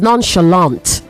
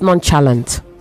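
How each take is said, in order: First: The second syllable starts with a 'sh' sound. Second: The second syllable starts with a 'ch' sound. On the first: The speaker calls it right. "It is nonchalant" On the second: The speaker calls it wrong. "not nonchalant"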